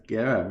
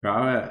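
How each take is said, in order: First: Gaara with "air" as first vowel; altered pronunciation. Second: Gaara with an open "ah" first vowel; usual pronunciation. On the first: Retold or imitated. Fan copying the voice actress, Gaara said "GAIR-a". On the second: Shown as a demonstration. Fan recalling the name's expected form, Gaara said "GAH-ra". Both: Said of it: "she actually pronounced Gaara as Gaara".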